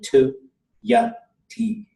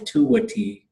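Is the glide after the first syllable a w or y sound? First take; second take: y sound; w sound. First: The classifier keeps an unrounded y sound. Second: The classifier is rounded into a w sound. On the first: "because it's actually tu yati" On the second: "this is why you say tuwati"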